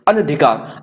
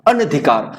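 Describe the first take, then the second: First: The vowel after 'an' is a short 'a'. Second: The same.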